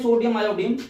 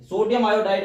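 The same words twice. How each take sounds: First: sodium आयोडीन, the second word said as आयोडीन, ending in -डीन; the common mistake: sodium आयोडीन; wrong reading. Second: sodium आयोडाइड, the second word said as आयोडाइड, ending in -डाइड; correct reading. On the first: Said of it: "ये गलत है". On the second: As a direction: teach the right form: sodium आयोडाइड, with -डाइड at the end. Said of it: "ऐसे पढ़ना है". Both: Shown as a demonstration.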